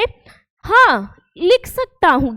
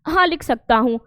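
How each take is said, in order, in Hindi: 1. पहले शब्द के बाद थोड़ा सा रुकना है। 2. शब्द बिना किसी रुकावट के एक साथ बोले जाते हैं। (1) "हाँ या नहीं आए तो उसके बाद ... अल्प विराम" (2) "ये चिन्ह को ना बोले तो ये वाक्य कैसे बोला जाएगा"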